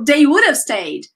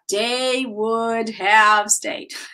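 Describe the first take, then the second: First: Would have is linked into one reduced sound. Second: Each word of would have is said separately. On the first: The speaker calls it right. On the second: The speaker calls it wrong.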